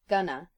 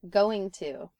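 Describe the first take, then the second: First: The words run together into one reduced form. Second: Both words are pronounced fully and separately.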